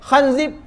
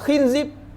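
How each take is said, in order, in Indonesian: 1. Vokal pertamanya bunyi 'a' terbuka. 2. Vokal pertamanya bunyi 'i' tertutup.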